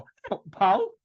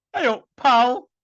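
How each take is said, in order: First: Said in the usual way. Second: "Hey up, pal." higher and louder, mock Yorkshire greeting; Ross Birkinshaw impression. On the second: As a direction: greet like a cheery northern mate. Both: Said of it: "Sound like Ross Birkinshaw".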